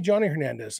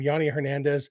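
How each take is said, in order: First: The first name begins with a J sound. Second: The first name begins with a Y sound. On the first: "Could be" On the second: "They got a guy named"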